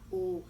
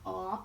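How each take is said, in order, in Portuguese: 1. A vogal soa como o O de ovo. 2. A vogal soa como o O de óculos. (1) "ou eu falo ovo" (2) "eu falo é, óculos"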